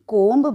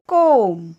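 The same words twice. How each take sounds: First: The word ends with a b sound. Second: The word ends without a b sound. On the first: The speaker calls it wrong. "कधीही कोंब बोलत नाही" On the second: The speaker calls it right. "याचा उच्चार आहे कोंब"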